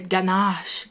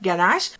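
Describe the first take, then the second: First: The word is said slowly and carefully, English-style. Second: The word is said quickly and casually, French-style. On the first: This is how English speakers say it. "They say ganache, ganache, which is kind of cute" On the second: This is how French speakers say it. "They don't say it as casually as we do French people, like ganache"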